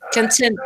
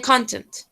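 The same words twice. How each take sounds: First: "content" stressed on the second syllable, con-TENT. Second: "content" stressed on the first syllable, CON-tent. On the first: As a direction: say "content" with a weak first syllable and strong TENT. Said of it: "the stress on the ne-, the second one". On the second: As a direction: say "content" with a strong, full CON and weak tent. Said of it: "the noun is that we start with the stress". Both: Shown as a demonstration.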